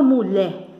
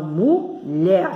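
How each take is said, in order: First: MULHER said without its final R, as mu-lhé; dropped final R. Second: MULHER slowly split as mu-lher, R at the end; mulher, slow and deliberate, ending on R; final R sounded. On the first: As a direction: leave the R off the end of mulher. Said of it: "porque eu não falo mulher". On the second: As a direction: sound out mulher in two syllables, keeping the final R. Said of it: "eu falo mulher". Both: Shown as a demonstration.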